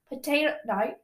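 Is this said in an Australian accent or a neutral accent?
Australian. It is said in an Australian accent.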